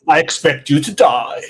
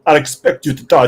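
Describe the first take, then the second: First: Lightly acted movie villain line; Bond villain. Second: Put-on villain line in a makeshift Russian accent. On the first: Guest plays the villain to his co-hosts, mock Bond villain. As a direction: deliver a mock-sinister villain threat. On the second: Guest retries villain line for co-host, rough Russian accent. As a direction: try a mock Russian villain voice. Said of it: "do that with a Russian accent now".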